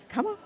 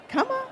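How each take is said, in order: First: Said in the usual way. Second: Much higher, sing-song coaxing; coaxing call. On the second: Real, not acted. Calling volunteers to stage.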